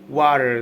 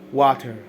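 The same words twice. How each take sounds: First: The final R sound is pronounced. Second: The final R sound is dropped.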